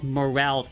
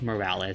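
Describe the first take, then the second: First: It is pronounced like the English word morale. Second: It is pronounced unlike the English word morale. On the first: The speaker calls it wrong. "I called this game Miles Morales at first because in the English language itself, the word morale is pronounced as morale" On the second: The speaker calls it right. "it's actually Miles Morales"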